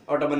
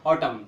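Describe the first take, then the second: First: ऑटमन ending in an extra "an"; sounded N. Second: ऑटम ending on m; silent N. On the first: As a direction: wrongly voice the last n of ऑटमन. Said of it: "ऑटमन नहीं बोलते". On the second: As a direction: say ऑटम with no final n. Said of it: "एन silent हो". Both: Shown as a demonstration.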